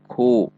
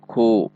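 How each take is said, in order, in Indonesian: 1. Bunyi k ada dorongan udara. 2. Bunyi k ada dorongan udara.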